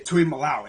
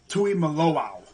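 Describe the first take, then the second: First: The name is said without the extra o. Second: The name is said with the extra o. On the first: The speaker calls it wrong. "Some people say Tuimoloau" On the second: The speaker calls it right. "Can't forget that other O"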